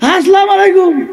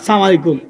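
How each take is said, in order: First: The greeting starts with the full 'assalamu'. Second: The greeting starts with a clipped 'salam'. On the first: The speaker calls it right. "এখন সালাম দিতে" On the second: The speaker calls it wrong. "সালাম দিতে পারে না।"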